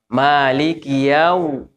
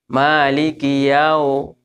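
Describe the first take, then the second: Both takes have the same delivery.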